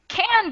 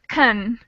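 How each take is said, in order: First: The vowel is a full, clear a sound. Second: The vowel is reduced to a short schwa. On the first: "Can gets changed to kun" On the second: "we never change can't to a schwa sound"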